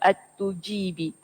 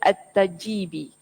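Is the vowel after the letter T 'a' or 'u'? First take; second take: u; a. First: The vowel after T is 'u'. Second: The vowel after T is 'a'. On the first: The speaker calls it right. "Huruf ta dibaca dengan baris depan" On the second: The speaker calls it wrong. "ada juga yang memfathahkan huruf ta"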